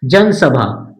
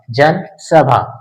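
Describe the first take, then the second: First: Said in the usual way. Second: जनसभा drawn out slowly as जन, then सभा; word split in parts. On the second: Shown as a demonstration. Teacher recapping the outline of जनसभा, slow split word.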